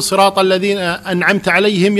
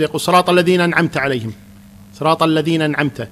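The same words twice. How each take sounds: First: صراط الذين أنعمت عليهم run together, the hamza of أنعمت dropped; mock the careless reciter who eats the hamza; swallowing the hamza. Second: صراط الذين أنعمت with the hamza of أنعمت dropped; swallowing the hamza. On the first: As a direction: slur الذين straight into نعمت with no glottal stop. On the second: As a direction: glide from الذين into نعمت with no stop. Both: Shown as a demonstration. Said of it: "ياكل الهمزة".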